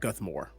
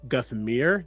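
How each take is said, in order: First: The last syllable sounds like 'more'. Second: The last syllable sounds like 'mere'. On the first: The speaker calls it wrong. "not Guthmore" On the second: The speaker calls it right. "I need to correct it. Guthmere"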